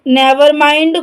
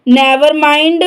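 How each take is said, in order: Both takes have the same delivery.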